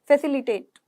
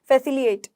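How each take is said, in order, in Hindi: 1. बीच वाली 't' ध्वनि साफ़ बोली जाती है। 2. बीच वाली 't' ध्वनि छोड़ दी जाती है। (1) "फैसिलिटेट है" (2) "फैसिलिएट नहीं है"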